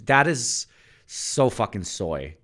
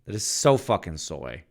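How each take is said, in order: First: Slow, mocking, higher put-on delivery; drawn-out teasing jab; mocking drawl. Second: Said in the usual way. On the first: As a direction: stretch "That is so fucking soy" out in a sneering tone. Mocking the voice change.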